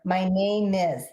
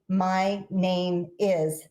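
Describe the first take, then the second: First: The words run together, the m linking forward. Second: Each word is said separately with clear breaks. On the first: The speaker calls it right. "it's almost like just two words" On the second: The speaker calls it wrong. "we don't say"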